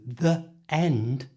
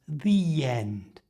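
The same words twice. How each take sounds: First: The words are said separately, no y sound. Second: The words are joined with a y sound.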